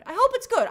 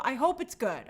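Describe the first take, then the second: First: Higher, louder pleading; anxious cry. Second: Said in the usual way. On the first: Shown as a demonstration. Host anxiously pleading about the Blade movie, loud. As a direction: call it out desperately. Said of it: "second take louder". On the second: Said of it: "repeated louder".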